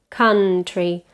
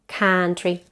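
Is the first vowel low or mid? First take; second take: mid; low. First: The first vowel is mid and short. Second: The first vowel is low and open. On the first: The speaker calls it right. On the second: The speaker calls it wrong.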